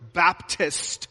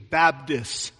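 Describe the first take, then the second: First: It is said with a T sound. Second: It is said with a D sound. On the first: "you don't say the word Baptist" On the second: "You put a D in there instead of a T"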